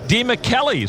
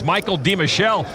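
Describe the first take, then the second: First: The name is said with an Italian pronunciation. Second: The name is said with an English pronunciation. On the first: This stays true to his Italian roots. "stay true to his Italian roots and pronounce it" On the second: This is how he was known before. "we knew him as"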